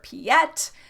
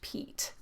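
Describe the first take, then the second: First: The name is said in a French-sounding way. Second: The name is said without a French-sounding style. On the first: The speaker calls it wrong. "people sometimes mispronounce it as Piet" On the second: The speaker calls it right. "it's really just Piet"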